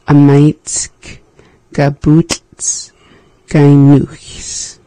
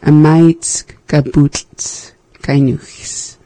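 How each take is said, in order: First: It is said more slowly. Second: It is said at normal speed.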